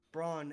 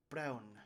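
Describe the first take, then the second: First: "Braun" with a long open "ah"; as spelt B-R-A-H-N. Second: "Braun" with an "ow" vowel, rhyming with brown; pronounced like B-R-A-U-N. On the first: Game master spells the brother's name, "Braun" said with long "ah". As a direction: say "Braun" as "Brahn", no "ow" glide. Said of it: "as in B R A H N". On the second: Game master gives the brother's name to players, "Braun" pronounced with "ow". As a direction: say "Braun" with a gliding "ow". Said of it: "it's pronounced like B R A U N". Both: Shown as a demonstration.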